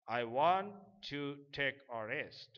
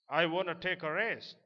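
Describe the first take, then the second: First: 'Want to' is said in full as two words. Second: 'Want to' is reduced and blended into 'wanna'. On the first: "That means I want to take a rest"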